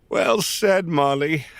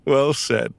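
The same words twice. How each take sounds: First: Said in the usual way. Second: Repeated through a chuckle; laughing. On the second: Real, not acted. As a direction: laugh as you say it again. Repeats praise while laughing.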